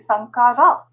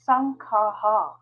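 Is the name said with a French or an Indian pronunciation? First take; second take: Indian; French. First: The name is said with an Indian pronunciation. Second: The name is said with a French pronunciation. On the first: "maybe in India, we will say Sankara" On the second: "That is the pronunciation in French"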